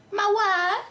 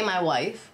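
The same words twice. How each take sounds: First: High, put-on Borat-style Russian accent. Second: Said in the usual way. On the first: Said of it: "I have this heavy Russian accent". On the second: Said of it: "Can you say".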